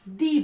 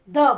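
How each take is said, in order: First: It ends in a long 'ee' vowel. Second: It ends in a short 'uh' vowel. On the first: The next word starts with a vowel sound. "तो यहां पर हम जो है दी बोलेंगे" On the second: The next word starts with a consonant sound. "T H E को लगाएंगे तो हम द बोलेंगे"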